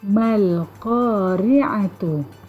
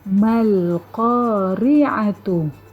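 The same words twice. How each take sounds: The two takes are said the same way.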